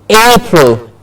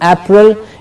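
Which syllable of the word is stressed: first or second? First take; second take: first; second. First: The stress is on the first syllable. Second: The stress is on the second syllable. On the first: The speaker calls it right. "A gets a clear stress and has to be said with a higher pitch" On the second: The speaker calls it wrong. "it's not April"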